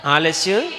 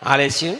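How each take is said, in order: First: ఆలస్యం called out a little harder with a rising end; ఆలస్యం, a touch louder. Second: Said in the usual way. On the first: Shown as a demonstration. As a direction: push ఆలస్యం out more firmly. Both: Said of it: "ఇంకా గట్టిగా చెప్పాలి".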